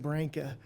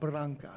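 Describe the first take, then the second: First: The name is said with a New York pronunciation. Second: The name is said with an Italian pronunciation. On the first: "My dad was from New York, so he said Branca" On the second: "my Italian friends say Bra- Branca"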